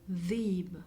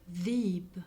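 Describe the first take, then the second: The two takes are said the same way.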